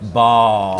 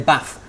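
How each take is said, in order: First: It is said with a London accent, long vowel. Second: It is said with a Manchester accent, short vowel.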